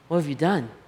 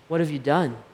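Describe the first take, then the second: First: It sounds sorrowful and full of remorse. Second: It sounds sorrowful and full of remorse.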